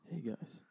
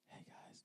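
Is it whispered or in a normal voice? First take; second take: normal; whispered. First: It is said in a normal voice. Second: It is said in a whisper.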